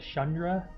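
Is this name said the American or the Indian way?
Indian. The name is said with an Indian pronunciation. This is how the name is said in India. "the actual Indian name is pronounced closer to"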